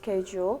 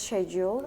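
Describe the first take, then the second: First: It is said with an American pronunciation. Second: It is said with a British pronunciation. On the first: "while in American English it becomes" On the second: "In British English, it is typically pronounced"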